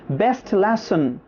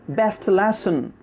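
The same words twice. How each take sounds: The two takes are said the same way.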